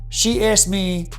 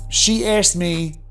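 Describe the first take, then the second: No difference in how they are said.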